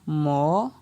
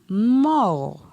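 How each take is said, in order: First: The syllable has a rising tone. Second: The syllable has a falling tone. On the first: "Ton montant" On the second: "Ton descendant"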